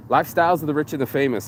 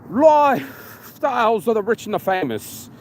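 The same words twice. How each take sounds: First: Said in the usual way. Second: Put-on English announcer accent. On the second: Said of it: "this fat bastard with an English accent".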